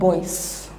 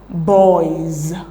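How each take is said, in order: First: The word ends with a hissing s sound. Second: The word ends with a buzzing z sound. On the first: The speaker calls it wrong. "and not boys" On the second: The speaker calls it right. "the plural marker attached to it is pronounced as z and not s"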